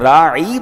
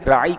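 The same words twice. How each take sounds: First: The word is stretched out with a long vowel. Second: The word is said short, without stretching. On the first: Shepherd. The speaker calls it wrong. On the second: Please show us consideration. The speaker calls it right.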